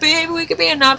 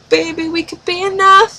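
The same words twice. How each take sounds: First: The voice falls at the end, adamant. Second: The voice rises at the end, questioning.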